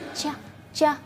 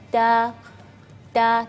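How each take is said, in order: First: The letter sounds like a 'ch' sound. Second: The letter is a thin, light 't' sound. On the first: The speaker calls it wrong. "melafalkannya ada suara seperti uh, c" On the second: The speaker calls it right. "melafalkannya ta ta tipis ya"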